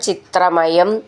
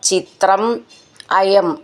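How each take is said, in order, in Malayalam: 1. രണ്ട് വാക്കുകളും ചേർത്ത് ഒന്നായി പറയുന്നു. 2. രണ്ട് വാക്കുകളും വേറെ വേറെയായി പറയുന്നു.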